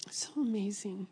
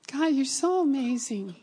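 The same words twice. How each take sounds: First: Soft, whispery praise; hushed awe. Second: Heartfelt, higher-pitched exclamation to God; awed praise. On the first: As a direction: drop to an awed near-whisper. Awed repeat, dropping to a hush. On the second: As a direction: lift the voice in wonder. Awed exclamation to God after story. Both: Real, not acted.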